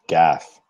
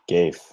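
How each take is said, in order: First: It sounds like the word gaffe. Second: It does not sound like the word gaffe. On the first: The speaker calls it right. "if you make a mistake, ... It's pronounced gaff" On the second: The speaker calls it wrong. "it's not pronounced gafe"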